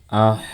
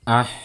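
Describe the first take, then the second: First: The syllable sounds thick and heavy. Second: The syllable sounds thin and light. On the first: The speaker calls it wrong. "jangan dibaca tebal" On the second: The speaker calls it right.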